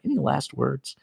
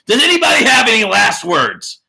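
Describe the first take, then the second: First: Soft aside. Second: Loud call-out. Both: Shown as a demonstration.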